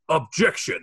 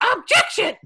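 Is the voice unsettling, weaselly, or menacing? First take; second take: unsettling; weaselly. First: An unsettling impression of Edgeworth's objection. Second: A weaselly impression of Winston Payne's objection.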